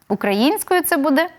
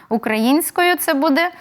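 No difference in how they are said.

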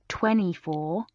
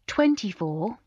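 First: The T in the middle is dropped. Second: The T in the middle is clearly pronounced. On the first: The speaker calls it wrong. "instead of" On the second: The speaker calls it right. "with the T in the middle"

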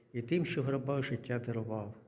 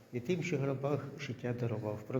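The two takes are said the same way.

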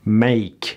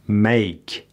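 Both takes have the same delivery.

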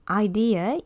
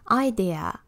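First: It is said with English pronunciation. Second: It is said with Japanese loanword pronunciation.

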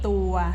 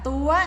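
First: The syllable has its plain unmarked tone. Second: The syllable has the mai tri tone. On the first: "ตออัวตัว" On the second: "ไม้ตรีตัว"

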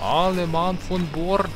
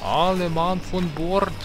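First: It is spoken in a put-on Russian accent. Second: The same.

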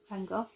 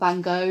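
First: The name is pronounced in a British way. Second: The name is pronounced in an American way.

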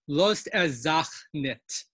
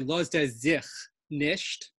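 First: It has the Litvak forms zach and nit. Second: It has the standard forms zich and nisht. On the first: "so much we can learn about Litvak Yiddish" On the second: "In standard Yiddish, we would say"

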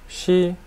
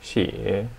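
First: The pitch stays high and level. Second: The pitch dips low, then rises.

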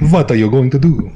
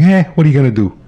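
First: It is said in a put-on Russian accent. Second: It is said in a plain, natural accent.

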